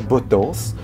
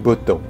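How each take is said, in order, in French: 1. Le S final est bien prononcé. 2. Le S final est muet. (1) "on ne dit pas Botance" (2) "on dit Botan"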